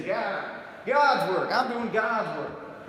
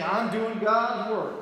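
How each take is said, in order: First: Slow, drawn-out "God's" in a mock preacher twang; mock preacher accent on God. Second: Drawn-out, slow "God's" in a mock preacher twang; mock preacher accent on God. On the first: Imitating street preachers, "God's" twanged slowly. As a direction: lean hard on "God's" like a pulpit drawl. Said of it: "they usually say". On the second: Mocking street preachers, preacher-twang on God. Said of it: "They don't have an accent. Except for the word God".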